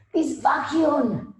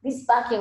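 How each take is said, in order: First: Slow, high, put-on German accent on "This vacuum". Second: Said in the usual way. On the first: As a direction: stretch out "This vacuum" like a German salesman. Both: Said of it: "this vacuum was a German accent".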